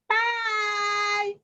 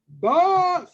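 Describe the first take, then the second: First: It is said in a tiny little voice. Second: It is said in a great big voice. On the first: "in his tiny little voice" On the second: "in his great big voice"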